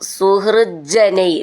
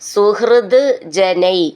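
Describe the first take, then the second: First: The words are joined with a doubled j sound. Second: The two words are said separately.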